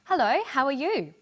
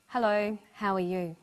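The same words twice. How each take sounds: First: Bright greeting, higher and louder with big pitch swings; happy. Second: Subdued greeting with little lift in the voice; sad. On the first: Teacher showing students how someone can sound happy. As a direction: sound happy saying hello. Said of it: "Someone can sound happy". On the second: Teacher showing students how someone can sound sad. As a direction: sound sad saying hello. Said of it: "or sound sad". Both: Shown as a demonstration.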